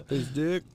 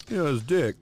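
First: Higher questioning echo, rising at the end; mock-innocent query; puzzled kid. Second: Higher, louder mock-dad clarification; hammed-up fatherly explanation; explaining dad. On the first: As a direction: repeat it like a baffled child. Kid echoes dad, acted skit. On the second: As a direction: spell it out to a confused kid. Dad explaining, acted as skit.

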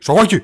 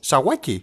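First: "Sawaki" punched out in a mock Japanese accent. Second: Said in the usual way. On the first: Shown as a demonstration. Co-host giving the profile name two ways, mock Japanese accent. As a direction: say "Sawaki" as a hammed-up Japanese exclamation. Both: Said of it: "Η Ιαπωνέζικα, Κινέζικα το ίδιο είναι".

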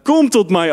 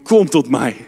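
First: "Kom tot mij" lifted up in pitch, pressing; rising, urgent repeat of "Kom tot mij"; higher repeated call. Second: Low-voiced "Kom tot mij" from Jesus; low gentle call. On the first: Acted. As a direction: lift the repeat higher, urging them to come. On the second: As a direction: call them in low and calm. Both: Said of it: "Die roept".

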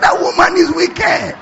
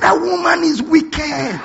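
First: Mock shout, higher. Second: Mock shout. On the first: Preacher repeating the friend's verdict to the crowd, shouting high. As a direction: shout the punchline higher and louder. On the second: Friend's punchline shouted.

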